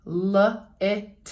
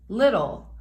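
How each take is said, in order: First: "l-it-ul" broken into separate slow syllable chunks; sounding out slowly. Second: Said in the usual way. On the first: Shown as a demonstration. Teacher showing pupils how to decode a word, slowly sounded out. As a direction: stretch out "l-it-ul" piece by piece, very slowly. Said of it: "all I'm doing is adding the syllable".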